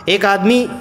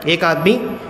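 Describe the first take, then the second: Both takes have the same delivery.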